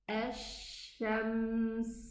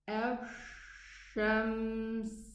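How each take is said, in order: First: The sh is made without rounding the lips. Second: The sh is made with rounded, pushed lips. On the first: The speaker calls it right. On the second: The speaker calls it wrong.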